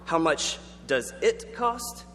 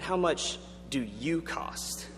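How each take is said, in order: First: Slow question with "it" set apart and stressed. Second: Very slow question, "you" singled out and stressed. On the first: Speaker contrasts two Greek questions for the audience, stressing "it". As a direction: draw the question out, leaning on "it". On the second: Speaker shows the embarrassing mix-up to the audience, stressing "you". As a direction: draw the question out, leaning on "you". Contrasts two easily confused questions. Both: Shown as a demonstration.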